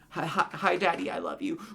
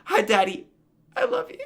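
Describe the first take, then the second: First: It is said flatly, like reading a script. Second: It is said with exaggerated emotion.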